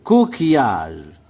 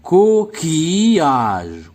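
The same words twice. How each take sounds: First: Said in the usual way. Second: "Coquillage" very slow, in three stretched beats: co-qui-age; "Coquillage" drawn out for counting syllables. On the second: Shown as a demonstration. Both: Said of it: "Donc, trois syllabes".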